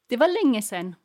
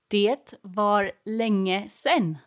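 First: It is said at normal conversational speed. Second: It is said slowly and carefully.

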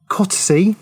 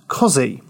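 First: It is said with all spelled syllables. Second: It is said shortened to two syllables. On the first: The speaker calls it wrong. "I may have pronounced that wrong, Pronouncing it as it is spelt" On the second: The speaker calls it right. "anyone that's lived in Norfolk knows it's pronounced Cozzy"

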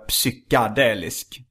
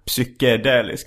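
First: The vowel after 'psyk' sounds like 'a'. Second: The vowel after 'psyk' sounds like 'e'. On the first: The speaker calls it wrong. "Där gör jag ju ganska många fel också, så här" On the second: The speaker calls it right. "med E"

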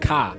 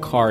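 First: The final r is dropped, with a long a. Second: The final r sound is pronounced. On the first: "is actually pronounced ka" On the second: "we would pronounce it car"

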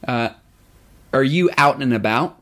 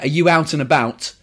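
First: It is said with an American accent. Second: It is said with a British accent. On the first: "In American, it would probably" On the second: "if you were to say in British English"

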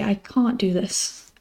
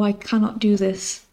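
First: The negative is contracted to can't. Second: The negative is said in full as cannot. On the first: "We would say" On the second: "we don't often say something like"

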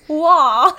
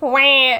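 First: It is said in a posh accent. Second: It is said in a plain accent.

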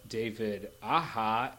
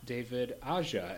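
First: The j in Aja sounds like an h. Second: The j in Aja sounds like an English j. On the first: The speaker calls it right. "it's David Aja" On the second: The speaker calls it wrong. "not David Aja, as we always say"

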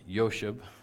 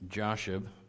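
First: The name is said the Hebrew way. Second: The name is said the English way.

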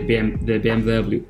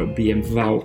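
First: The letters are spoken with English letter names. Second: The letters are spoken with German letter names.

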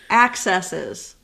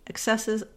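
First: The stress falls on the first syllable. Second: The stress falls on the second syllable. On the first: The speaker calls it right. "There you go" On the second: The speaker calls it wrong. "You said excesses again"

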